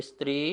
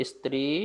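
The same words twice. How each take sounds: Both takes have the same delivery.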